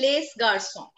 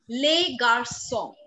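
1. 'les' का s उच्चारित होता है। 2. 'les' का s मौन है। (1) "I won't say les garçons. Les garçons is wrong" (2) "I will say les garçons"

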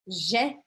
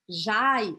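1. A vogal é um único som de e. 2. A vogal desliza de a para i. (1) "eu vou falar Jé" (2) "eu não vou falar Jai"

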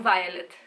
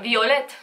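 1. Numele se pronunță în stil nefrancez. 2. Numele se pronunță în stil francez. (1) "nu Violet" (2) "de fapt Violet"

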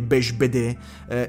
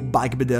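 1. Il nome è pronunciato in modo francese. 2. Il nome è pronunciato in modo non francese. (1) "è francese quindi è Bechbeder" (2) "o Bechbeder, ma no"

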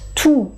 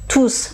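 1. Le mot se termine sans son s. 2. Le mot se termine par un son s. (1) "tout avec un nom, je ne prononce pas le S" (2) "tous avec un verbe à côté, je prononce le S"

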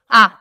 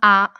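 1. Le son est prononcé très fort. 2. Le son est prononcé plus fort que normal. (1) "encore plus fort" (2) "plus fort"

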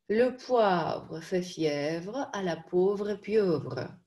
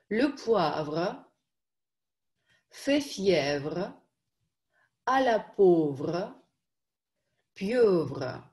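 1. Произносится целиком, в более быстром темпе. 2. Произносится отдельно, по одному слову. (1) "Побыстрее" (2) "По слову"

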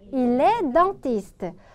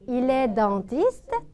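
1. 끝에서 목소리가 평평하거나 내려가요. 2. 끝에서 목소리가 확 올라가요. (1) "그는 치과의사야" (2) "확실하게 억양 높이면서"

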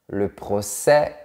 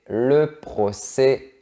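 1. La voyelle finale est un e ouvert. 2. La voyelle finale est un e fermé.

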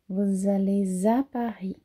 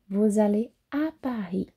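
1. Um som de z liga allez a à. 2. Nenhum som de z liga allez a à. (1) "eu ligo o S com uma vogal que tem som de Z" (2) "Então vocês também podem falar"

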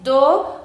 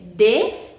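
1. La palabra termina en una vocal o. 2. La palabra termina en una vocal e. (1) "aquí no es do" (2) "es de"

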